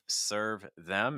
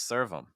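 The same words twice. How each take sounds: First: The TH sound in them is clearly pronounced. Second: The TH sound is dropped, linking the words. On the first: "Instead of saying" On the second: "it becomes"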